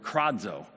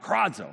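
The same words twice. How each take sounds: First: Said in the usual way. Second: High cawed kradzo like a crow. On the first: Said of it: "is the word kradzo". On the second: Shown as a demonstration. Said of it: "like the sound of a crow cawing out".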